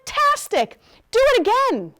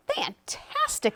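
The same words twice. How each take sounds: First: High, loud cheer; excited shout. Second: High, drawn-out word of praise; admiring. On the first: Princess goads dragon to fly again, shouting. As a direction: shout it with mock delight, egging them on. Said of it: "Elizabeth shouted". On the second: Princess flatters dragon after his fire, admiring. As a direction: flatter with slow, high wonder. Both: A narrator's reading.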